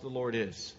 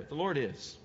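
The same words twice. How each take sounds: First: "the Lord is" landed with a falling close; weight "Lord", let it fall; stress on Lord. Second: "The Lord is" repeated, pressed on "Lord"; stress on Lord. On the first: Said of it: "You can just stop there". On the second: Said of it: "that's an awesome statement". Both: Shown as a demonstration.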